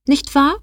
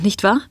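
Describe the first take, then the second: First: Nicht wahr flung back high, wahr rising sharply; mocking tag question. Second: A mild questioning rise on wahr; a hint of a smug official seeking agreement; lightly voiced HR officer. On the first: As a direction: echo nicht wahr with a higher mocking lilt. Joe mocks the officer's phrase. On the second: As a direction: nicht wahr asked lightly, wahr lifted a little.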